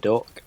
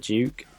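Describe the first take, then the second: First: It is said with a short 'uh' vowel. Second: It is said with a long 'oo' vowel. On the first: The speaker calls it wrong. "the weapon that we all thought was called the Duck" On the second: The speaker calls it right. "is actually pronounced as the Duke"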